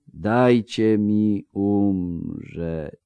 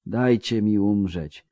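First: Words dragging out as he drifts off; fading, very slow. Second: Slowing down. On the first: Wounded man sinking under healing magic, very slow. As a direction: let each word sink, barely holding on. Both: Acted. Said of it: "mówił coraz wolniej pod wpływem magii".

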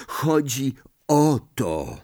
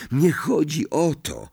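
First: Slow "chodzi o to", weight on the final "to"; pointed emphasis. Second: Higher, quicker "Nie chodzi o to"; dismissive correction. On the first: Ron indicates the dreaded envelope, slow and emphatic. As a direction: draw out "o to" as if pointing at it. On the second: Ron brushes off Hermione's reassurance, correcting her. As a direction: wave it away with a lifted "Nie chodzi". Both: A narrator's reading.

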